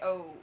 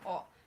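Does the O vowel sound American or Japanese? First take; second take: American; Japanese. First: The O is a gliding American vowel. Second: The O is a pure Japanese vowel. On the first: The speaker calls it wrong. "Americans would say O" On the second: The speaker calls it right. "O would be the, the right pronunciation in Japan"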